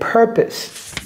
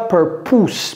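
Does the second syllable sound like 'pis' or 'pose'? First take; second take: pis; pose. First: The second syllable sounds like 'pis'. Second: The second syllable sounds like 'pose'. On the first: The speaker calls it right. "C'est purpose. Purpose. Pis" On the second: The speaker calls it wrong. "Ne dites pas purpose"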